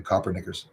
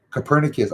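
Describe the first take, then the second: First: Copernicus said like "copper knickers", stress up front; mispronounced Copernicus. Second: Copernicus said co-PER-ni-cus, stress on the second syllable; standard pronunciation of Copernicus. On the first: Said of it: "I was gonna do it again". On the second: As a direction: say Copernicus the standard way, short unstressed first syllable. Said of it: "the way I was pronouncing it was". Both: Shown as a demonstration.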